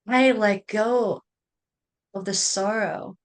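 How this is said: It is said in a firm, commanding way. The speaker calls it right. "authoritative, assertive"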